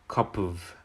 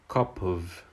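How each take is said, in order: The two takes are said the same way.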